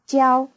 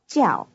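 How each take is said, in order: First: The syllable has a high level tone. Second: The syllable has a falling tone. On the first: It means to teach. "the tone on the verb to teach is high" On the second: It is the first part of the word for professor. "the tone on the first syllable of the word for professor is falling"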